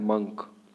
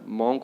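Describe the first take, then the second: First: The vowel is a short 'u' as in 'cup'. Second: The vowel is an open 'o' as in 'hot'. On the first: The speaker calls it right. "आपको क्या बोलना है, मंक" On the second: The speaker calls it wrong. "मॉन्क बोलते हैं जो तरीका बिल्कुल गलत है"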